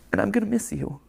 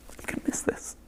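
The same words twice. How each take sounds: First: Emotional, close to tears; holding back tears, words catching; choked up, voice barely holding. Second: Whispered, voice giving out from tears; tearful whisper. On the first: Creator saying goodbye to viewers, choking up. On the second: Creator saying goodbye to his channel, in a tearful whisper. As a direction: breathe it out, too choked to voice it. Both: Real, not acted. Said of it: "physically cry".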